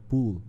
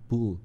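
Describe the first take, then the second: No difference in how they are said.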